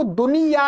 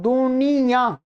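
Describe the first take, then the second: First: "दुनिया" with a plain oral final -yaa; oral ending, no nasal. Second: "दुनिया" ending in a nasalised -yaan; nasal ending. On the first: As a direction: keep the nose out of the last vowel of "दुनिया". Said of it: "इसको दुनिया नहीं बोलते". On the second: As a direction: send the last vowel of "दुनिया" through the nose. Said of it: "नासिका से भी हो रहा है". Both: Shown as a demonstration.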